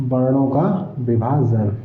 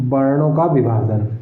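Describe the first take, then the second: First: Slow, deliberate वर्णों का विभाजन dictated word by word; teacher dictating वर्णों का विभाजन slowly to students; slow dictation. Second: Said in the usual way. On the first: Shown as a demonstration. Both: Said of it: "कंपन के आधार पर वर्णों का विभाजन".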